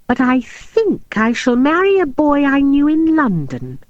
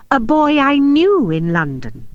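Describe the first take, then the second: First: Said in the usual way. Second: Knew stressed with a falling tune. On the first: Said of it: "she said demurely". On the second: A narrator's reading. Maria correcting Robin, stress on knew. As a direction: lean on the word knew to correct him. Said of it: "I said".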